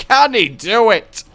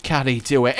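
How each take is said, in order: First: Louder, higher sportscaster-style question; mock hype announcer. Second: Said in the usual way. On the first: Cheering his own run on like a hammed-up commentator.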